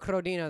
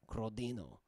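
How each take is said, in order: First: It is said with a plain English accent. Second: It is said with an Italian accent. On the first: The speaker calls it wrong. "no, that's not it" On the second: The speaker calls it right. "I'm saying it with the accent"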